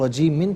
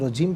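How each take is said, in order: First: The word ends with an added -in sound. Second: The word stops on the final m sound. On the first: The reading continues without stopping. "इसे हम रजीमिन पढ़ेंगे" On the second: The reader stops at this word. "वफ़ की सूरत में रजीम पढ़ेंगे"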